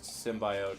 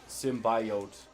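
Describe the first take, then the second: First: The word is said casually and smoothly. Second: Every syllable of the word is overpronounced. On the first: The speaker calls it right. "It's never just symbiote" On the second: The speaker calls it wrong. "she overpronounces every syllable"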